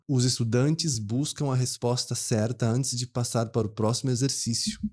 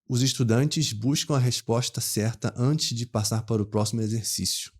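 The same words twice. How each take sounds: First: A São Paulo city accent. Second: A Rio accent with hushed 'sh'-like s sounds. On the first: "um paulistano bem, bem da capital ... Ele pronunciaria assim" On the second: "um carioca da capital mesmo ali ... Ele pronunciaria assim"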